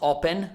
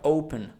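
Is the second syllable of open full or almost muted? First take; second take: full; muted. First: The second syllable has a full vowel. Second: The second syllable is almost muted. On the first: The speaker calls it wrong. "not open" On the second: The speaker calls it right. "but open ... It's almost muted"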